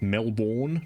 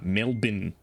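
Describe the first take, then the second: First: The name is said in an American accent. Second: The name is said in an Australian accent. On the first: The speaker calls it wrong. "You all pronounce it Melbourne?" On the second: The speaker calls it right. "Nah, Melbourne"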